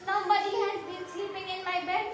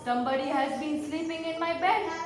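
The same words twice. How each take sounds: First: It is said in a small, little voice. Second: It is said in a big, deep voice. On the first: "in his little voice" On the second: "in his great big Papa Bear voice"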